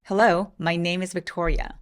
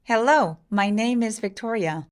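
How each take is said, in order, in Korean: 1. 목소리가 낮아요. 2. 목소리가 높아요. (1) "제가 그냥 평소에 영어를 말할 때 목소리로 말해볼게요" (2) "혹시 여러분이 이렇게 읽진 않으셨어요?"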